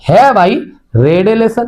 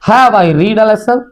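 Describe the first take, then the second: First: The word 'read' rhymes with 'bed'. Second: The word 'read' rhymes with 'need'. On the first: The speaker calls it right. "Third जो pronunciation छा थींदो आहे रीड जो have I रेड ए lesson." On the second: The speaker calls it wrong. "Sorry"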